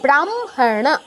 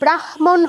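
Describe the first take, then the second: First: The m sound comes before the h. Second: The h sound comes before the m. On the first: The speaker calls it right. "কিন্তু হবে কি" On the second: The speaker calls it wrong. "এখানে ব্রাহ্মণ হওয়া উচিত ছিল"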